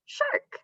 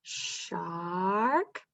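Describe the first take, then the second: First: "shark" snapped out much higher; quick answer. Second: "Shark" drawn out softly as a blend; slow blend. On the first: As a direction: say the word brightly as the answer. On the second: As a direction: stretch the word as you blend. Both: Shown as a demonstration. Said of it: "Put it all together".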